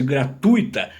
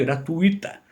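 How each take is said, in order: First: "gratuita" stressed as proparoxytone, gra-TÚ-i-ta; slow "gratuita" with weight on TÚ; stress shifted within the word. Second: "gratuita" as gra-TUI-ta; stress in the middle. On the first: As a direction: stretch the TU of "gratuita". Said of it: "seria proparoxítona". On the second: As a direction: keep "ui" as one stressed syllable in "gratuita". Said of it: "O acento fica ali no meio". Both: Shown as a demonstration.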